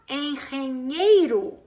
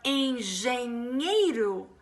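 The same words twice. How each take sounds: First: The g is said like an R sound. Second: The g is not said like an R sound. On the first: It sounds like Spanish. The speaker calls it wrong. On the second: It sounds like Portuguese. The speaker calls it right.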